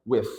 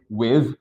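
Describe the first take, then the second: First: WITH ends in a soft voiceless th; WITH with th as in "thin". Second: First WITH ends in a voiced, buzzing th. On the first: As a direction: blow air through the final th of WITH. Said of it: "dengan suara". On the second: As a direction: buzz the final th of WITH. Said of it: "so you can say with atau dengan suara". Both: Shown as a demonstration.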